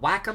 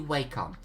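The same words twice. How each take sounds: First: The name is pronounced in a harsh, blunt way. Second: The name is pronounced in a gentle, soft way. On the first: This is the official pronunciation. "Wacom is like a German just punched you to the face" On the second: This is the preferred personal pronunciation. "It's like an elf just caressed your cheek and kissed it delicately"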